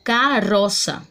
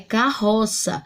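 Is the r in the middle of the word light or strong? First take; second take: light; strong. First: The middle r is a light single-r sound. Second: The middle r is a strong double-r sound. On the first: The word is read as if spelled with one R. The speaker calls it wrong. "se eu tivesse escrito apenas com um R ... eu teria que ler ele como carroça" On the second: The word is read as spelled with two R's. The speaker calls it right. "a palavra é carroça"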